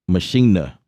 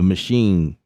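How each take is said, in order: First: It ends with an extra final vowel sound. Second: It is said like the English word machine. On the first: The speaker calls it right. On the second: The speaker calls it wrong.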